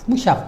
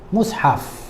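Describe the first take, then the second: First: The middle consonant is a single 'sh' sound. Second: The middle has a separate 's' then 'h'. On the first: The speaker calls it wrong. "Dia tak tak perkataan mushaf pun tak pandai nak sebut. Disebut musyaf" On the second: The speaker calls it right. "Oh ya, mushaf ni Al-Quran lah"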